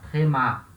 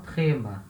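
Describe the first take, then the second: First: The stress is on the last syllable. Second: The stress is on the first syllable. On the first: The speaker calls it right. "A última sílaba é a sílaba tônica" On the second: The speaker calls it wrong. "E não trema"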